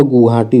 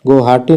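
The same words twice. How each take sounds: First: गुवाहाटी said as "guhaati", with a u; correct form. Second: गुवाहाटी said as "gohaati", with an o; wrong form. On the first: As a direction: put a u in the first syllable of गुवाहाटी, settling. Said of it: "गुवाहाटी नहीं होता है". (गुवाहाटी में गु साफ़, सुर गिरता हुआ) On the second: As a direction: put an o in the first syllable of गुवाहाटी. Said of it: "गुवाहाटी होता है". (गुवाहाटी को गोहाटी जैसा बोलें) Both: Shown as a demonstration.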